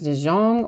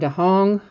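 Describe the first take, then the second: First: The second syllable starts with a hard J sound. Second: The second syllable starts with an H sound. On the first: "a hard J" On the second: "the J is supposed to sound like an H"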